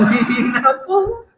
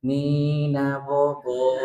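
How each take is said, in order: First: "Nina Bobo" asked much higher, drawn out; incredulous. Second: Slow sung Nina Bobo, lullaby tune. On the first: Asking the men if the sermon was a lullaby, incredulous and high. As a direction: feign disbelief at "Nina Bobo". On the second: Sung, mocking the sermon as a lullaby to the congregation. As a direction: croon "Nina Bobo" like rocking a baby. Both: Retold or imitated. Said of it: "Kok aku dengernya".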